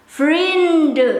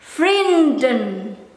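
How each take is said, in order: First: The final n sound is dropped. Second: The final n sound is pronounced. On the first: "Some will pronounce this friends as vriend" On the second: "I will pronounce the letter N"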